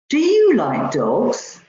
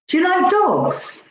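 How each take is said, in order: First: The stress falls on the word you. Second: The stress falls on the word dogs. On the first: The question is about this person rather than someone else. "Rather than somebody else" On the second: The question is about dogs rather than cats. "Rather than cats"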